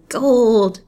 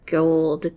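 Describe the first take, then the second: First: Higher and louder greedy exclamation; the hag's greed bursts out loud; greedy cry. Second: Muttered. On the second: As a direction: mutter the word to yourself, greedy. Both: A narrator's reading. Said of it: "she muttered".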